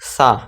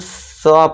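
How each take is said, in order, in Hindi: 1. स्वर एक खुली 'ah' ध्वनि है। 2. स्वर एक गोल होठों वाली 'aw' ध्वनि है। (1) "ना कि सा" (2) "हम सौ पढ़ेंगे"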